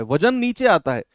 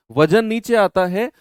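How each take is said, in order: First: Said in the usual way. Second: नीचे आता है said again louder, rising at the end; emphatic repeat. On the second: Shown as a demonstration. Teacher repeating the rule to the class, louder and rising. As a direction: drive home वजन नीचे आता है with a push on आता.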